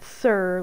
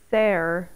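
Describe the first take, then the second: First: The vowel sounds like the vowel in 'sir'. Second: The vowel sounds like the vowel in 'air'. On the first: The speaker calls it wrong. "not sir, like I-R" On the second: The speaker calls it right. "It's supposed to be pronounced there, like, I don't know, Old English"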